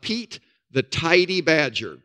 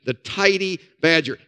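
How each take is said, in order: First: Tidy said slowly and clearly as "Tidy"; Tidyの一語をはっきりゆっくり; stress on Tidy. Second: Tidy stressed, Badger falling; Tidy Badgerのタイディを念押しして. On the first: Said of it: "Not tiny, the Tidy Badger". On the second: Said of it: "Not tiny". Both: Shown as a demonstration.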